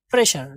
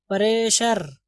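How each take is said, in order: First: प्रेशर said short, without dragging the vowel; quick pronunciation. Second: प्रेशर stretched out as pa-RAY-shar; drawn-out mispronunciation. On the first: Teacher correcting students to read it quickly, short प्रेशर. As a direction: say प्रेशर quickly as two tight syllables. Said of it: "जल्दी से पढ़ेंगे". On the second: Teacher mimicking how we say it, प्रेशर pulled long. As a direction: drag the first vowels of प्रेशर. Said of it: "थोड़ा सा खींच देते हैं". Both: Shown as a demonstration.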